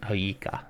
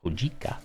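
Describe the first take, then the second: First: Hoika said with no g sound; silent g try. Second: Hojika with a clear j sound; sounded j try. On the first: Wondering aloud how to say the tea's name, Hoika with silent g. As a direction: say Hoika, dropping the j. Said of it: "or is it silent". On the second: Testing the tea name aloud, Hojika with the j sounded. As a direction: say Hojika, pronouncing the j. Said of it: "Do you pronounce the G". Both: Shown as a demonstration.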